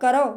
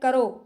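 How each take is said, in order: First: The final vowel is a long o. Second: The final vowel is a short o. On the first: This is the Braj form. "बड़ा ओ की मात्रा जो होती है ना, वो ब्रज के अंदर होती है" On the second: This is the Bangaru (Haryanvi) form. "करो तो ये बांगरू में बोली जाती है"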